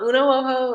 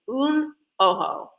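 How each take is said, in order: First: The first word is the two-syllable uno. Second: The first word is the single syllable un. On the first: The speaker calls it wrong. "It's not uno ojo" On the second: The speaker calls it right. "It's un ojo, not anything else"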